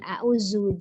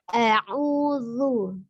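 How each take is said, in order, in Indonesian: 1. Huruf konsonan tengahnya bunyi 'z'. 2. Huruf konsonan tengahnya bunyi 'dh'. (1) "bukan a'uzu" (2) "Ujung lidahnya keluar sedikit menyentuh ujung gigi seri atas ya. A'udzu ya"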